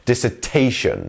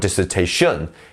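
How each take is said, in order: First: The main stress falls on the 'ta' syllable. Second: The main stress falls away from 'ta'. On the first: The speaker calls it right. "The T is our stressed syllable here" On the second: The speaker calls it wrong. "or dissertation"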